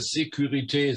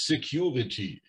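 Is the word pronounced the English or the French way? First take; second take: French; English. First: The word is pronounced the French way. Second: The word is pronounced the English way. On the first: The speaker calls it right. "müsst ihr Security sagen. Das ist Französisch" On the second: The speaker calls it wrong. "Bitte sagt da bitte nicht Security"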